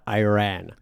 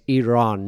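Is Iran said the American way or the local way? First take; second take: American; local. First: Iran is said with the American pronunciation. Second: Iran is said with the local pronunciation. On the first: This is how the visiting player said it. The speaker calls it wrong. "not Iran" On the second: This is how people in the country say it. The speaker calls it right. "in our country, you need to say it right, okay? It's Iran"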